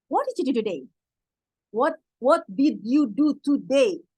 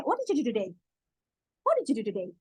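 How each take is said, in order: First: Slow, word by word, every word clear; slow careful English. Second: Quick and linked, sounds swallowed; fast native English. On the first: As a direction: say each word separately like a learner. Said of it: "Kalau bahasa kita nih ya". (pelan dan jelas kata per kata) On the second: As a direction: run the words together like a native. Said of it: "Cepet banget kan?". (cepat dan menyambung seperti penutur asli) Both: Shown as a demonstration.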